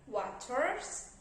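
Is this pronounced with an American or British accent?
American. It is said in an American accent. "In American, we pronounce these words like"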